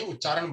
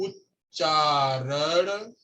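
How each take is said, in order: First: "उच्चारण" said correctly, with a doubled t-ch and a clear final retroflex n; correct pronunciation. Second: "उच्चारण" said the wrong way, the one students must not copy; mispronounced word. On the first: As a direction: model the right way to say "उच्चारण" for the class. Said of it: "उच्चारण बोलते हैं उसको". ("उच्चारण" सही और स्पष्ट उच्चारण में) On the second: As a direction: say "उच्चारण" with the teacher's deliberate mistake in the final sound. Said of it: "उच्चारण नहीं". ("उच्चारण" जानबूझकर गलत उच्चारण में) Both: Shown as a demonstration.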